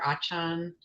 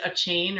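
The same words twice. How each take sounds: First: Achan said "AH-chahn"; alternative pronunciation. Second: Achane said "uh-CHAIN"; pronunciation option. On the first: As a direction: say Achan with two open "ah" vowels. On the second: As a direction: say Achane with a long "ay", rhyming with chain. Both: Shown as a demonstration. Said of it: "is it Achane or Achan".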